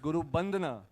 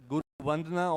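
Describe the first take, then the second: First: The second word begins with a b sound. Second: The second word begins with a v sound. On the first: This is how the name is said in the Northeast. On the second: This is the general pronunciation of the name.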